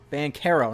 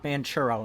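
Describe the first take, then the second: First: The middle does not sound like 'churro'. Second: The middle sounds like the word 'churro'. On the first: The speaker calls it right. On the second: The speaker calls it wrong.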